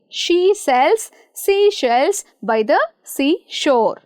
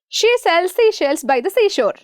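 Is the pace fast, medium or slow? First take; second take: slow; fast. First: It is said slowly. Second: It is said very fast.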